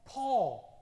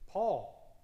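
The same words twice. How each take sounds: First: Paul again, higher and much louder; loud call. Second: Name him with emphasis; calling a name. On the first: Preacher to congregation, loudly repeating the name. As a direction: ring the name out across the room. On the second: Preacher to congregation, calling out the name firmly. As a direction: call out Paul, firm and louder. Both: Real, not acted.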